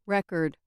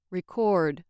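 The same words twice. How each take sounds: First: Record as a noun, REC-ord; first-syllable stress. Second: Record as a verb, re-CORD; weak start on "record", full weight on CORD; second-syllable stress. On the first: Teacher showing the noun form, first-syllable stress. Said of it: "With stress on the first syllable". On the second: Teacher showing the verb form, second-syllable stress. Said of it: "on the second syllable, they act as verbs". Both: Shown as a demonstration.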